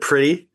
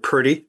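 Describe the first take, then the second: First: It is said with a standard American accent. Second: It is said with a Southern American accent.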